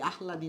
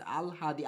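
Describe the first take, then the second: First: "আহলাদি" said with h before l; wrong pronunciation. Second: "আলহাদি" said with l before h; correct pronunciation. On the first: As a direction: sound "আহলাদি" as ah-la-di. ("আহলাদি" উচ্চারণে আগে হ, পরে ল) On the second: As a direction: sound "আলহাদি" as al-ha-di. ("আলহাদি" উচ্চারণে আগে ল, পরে হ) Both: Shown as a demonstration. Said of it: "আহলাদি না".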